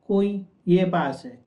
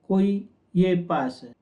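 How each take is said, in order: No difference in how they are said.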